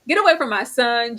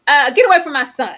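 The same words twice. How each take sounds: First: Laughing repeat. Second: Louder, higher yell of get away from my son; mock mother's yell. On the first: Retold or imitated. Laughing as she repeats the mother's line. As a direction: get away from my son through a laugh. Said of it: "repeat with laugh". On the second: Imitating the mother ordering her son's lover away, loud. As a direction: bark it like an outraged mother. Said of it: "mother character quoted".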